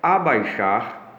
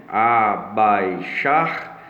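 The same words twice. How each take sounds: First: Abaixar said slowly and clearly; word said slowly. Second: Abaixar drawn out syllable by syllable, last syllable stressed; split into syllables. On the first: Teacher saying Abaixar slowly to the class. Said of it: "Separação silábica". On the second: Teacher splitting Abaixar into syllables, stressing the last one. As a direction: stretch out a-bai-XAR, leaning on the final syllable. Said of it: "tendo a tonicidade da, da sílaba ali". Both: Shown as a demonstration.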